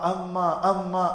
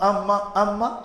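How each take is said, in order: The two takes are said the same way.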